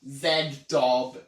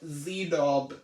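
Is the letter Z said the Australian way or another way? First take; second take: Australian; other. First: The letter Z is said the Australian way. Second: The letter Z is said the non-Australian way. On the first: This is how it is said in the speaker's country. "in Australia, we don't say Z, we said Z. So we would say" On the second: This avoids upsetting viewers from elsewhere. "I'm just gonna stick to saying"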